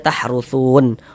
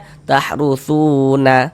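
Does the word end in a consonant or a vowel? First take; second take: consonant; vowel. First: The word ends on a silent final n. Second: The word ends with a final vowel sound. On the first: The speaker calls it right. "tapi dibaca tahrusun. Huruf nun kita sukunkan, kita matikan" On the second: The speaker calls it wrong. "Jangan dibaca tahrusuna, berhenti begitu jangan"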